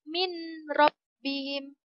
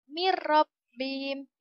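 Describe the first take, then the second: First: The n is pronounced clearly before the r. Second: The n merges into a doubled r, unnasalized. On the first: The speaker calls it wrong. "Itu salah ya" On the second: The speaker calls it right. "Menjadi mirrabbihim. Tidak boleh berdengung"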